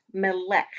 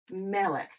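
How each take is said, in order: First: Melech said flat and plain, no guttural; wrong melech. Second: Melech with a throaty guttural k; Melech, the k from the back of the throat; right Hebrew melech. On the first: Teacher showing the wrong way to say melech. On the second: Teacher showing the right way to say Melech. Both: Shown as a demonstration. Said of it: "not melech".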